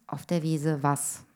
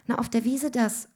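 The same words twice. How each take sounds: First: Slow, stern fatherly question; suspicious father. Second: Higher-pitched little daughter; child explaining. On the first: Father questions his daughter's answer, slow and stern. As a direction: echo it slowly as a disbelieving father. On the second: Child tells father where the friend is, higher voice. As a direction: answer Dad in a higher child's voice. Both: A narrator's reading.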